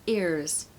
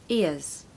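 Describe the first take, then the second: The two takes are said the same way.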